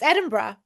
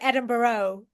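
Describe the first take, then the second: First: The ending is reduced to a short 'bruh'. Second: The ending is said as a full 'borough'. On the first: This is how locals say it. The speaker calls it right. "It's Edinburgh" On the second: This is how visiting Americans say it. The speaker calls it wrong. "Americans come when they come over here, it's always like Edinburgh"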